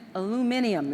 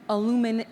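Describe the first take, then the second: First: The word is said with five syllables. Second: The word is said with four syllables.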